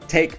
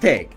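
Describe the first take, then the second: First: The first consonant is crisp and light. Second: The first consonant is guttural and less crisp.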